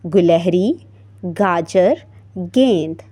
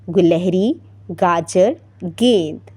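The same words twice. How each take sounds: First: The three words are said slowly. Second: The three words are said fast.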